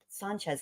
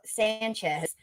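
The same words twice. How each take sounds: First: The name uses its common pronunciation. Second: The name uses a variant pronunciation. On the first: This is the usual way to say the name. "Sanchez is how you say it" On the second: This is one particular person's way of saying it. "is how uh, Leticia says it"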